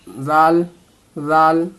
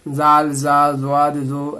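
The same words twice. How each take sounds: First: जाल said softly at a medium weight; medium soft jaal. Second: जाल and जा said the same way, the wrong way; wrong way, all alike. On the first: Teacher shows correct soft जाल after the wrong one. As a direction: voice जाल gently, neither heavy nor light. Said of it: "मध्यम आवाज़ में, हल्की आवाज़ में". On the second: Teacher imitates students saying the letters alike. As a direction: show the mistake of merging जाल and जा. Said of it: "बहुत लोग इसको एक जैसी आवाज़ में बोलते हैं". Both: Shown as a demonstration.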